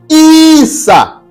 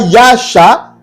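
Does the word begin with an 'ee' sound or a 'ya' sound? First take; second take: ee; ya. First: The word begins with an 'ee' sound. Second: The word begins with a 'ya' sound. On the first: The speaker calls it right. "mais c'est Issa" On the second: The speaker calls it wrong. "ce n'est pas Yasha"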